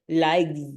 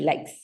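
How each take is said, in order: First: It ends with a buzzing z sound. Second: It ends with a hissing s sound. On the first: The speaker calls it wrong. "you don't say with z, that sound" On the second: The speaker calls it right. "It's only likes"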